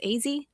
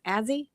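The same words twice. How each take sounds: First: "Azzy" as "Ay-zee" with a long "ay"; cool Azzy. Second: "Azzy" with a flat Oklahoma "a" as in "as". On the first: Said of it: "a cool basketball player who says". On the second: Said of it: "somebody from Oklahoma who says Azzy". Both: Retold or imitated.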